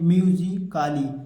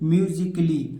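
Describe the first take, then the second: First: The ending sounds like 'kaali' with a long vowel. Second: The ending sounds like 'kli' with no vowel. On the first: The speaker calls it wrong. "बहुत सारे बच्चे क्या पढ़ते हैं" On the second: The speaker calls it right. "इसे क्या पढ़ेंगे"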